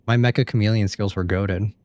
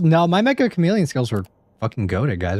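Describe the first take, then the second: First: Said in the usual way. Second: Indignant brag. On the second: Real, not acted. Indignant defence of his skills.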